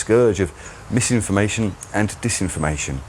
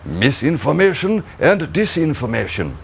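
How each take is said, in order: First: It is said in the speaker's normal accent. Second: It is said in a put-on German accent.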